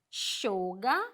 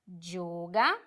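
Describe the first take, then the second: First: The first consonant is a soft sh sound. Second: The first consonant is a strong, intense y sound. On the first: "Com o cheísmo reilado, elas são um pouquinho mais suave" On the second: "com o dieísmo ... uma ênfase nessas letras ... Será mais forte, mais intenso"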